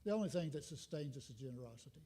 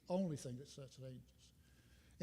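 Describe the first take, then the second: First: Said in the usual way. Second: Softer and slower, letting "Only thing that sustains us" sink in; soft slow echo. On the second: Real, not acted. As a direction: repeat it softly to yourself, slowly. Repeated line said softer, slower.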